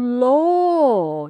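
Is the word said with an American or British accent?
British. The vowel is rounded, like 'or'. "the American and the British pronunciations are different"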